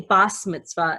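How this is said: The first word ends with an S sound. This is how some families from Eastern and Central Europe say it. "pronounce the second letter over here as a Sav"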